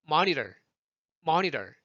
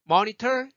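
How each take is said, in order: First: Loosen the T of monitor into a tap; American flap in monitor; flapped T. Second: Monitor high and loud with a crisp T; aspirated "mo-ni-tor"; full T sound. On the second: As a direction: pop the T in Monitor. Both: Shown as a demonstration. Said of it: "휴지가 움직이는 게 다르죠".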